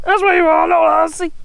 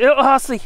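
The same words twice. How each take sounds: First: High, louder doggy voice with a different sound; pet talk. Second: Said in the usual way. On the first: Pretend. Owner teasing his dog in high baby talk.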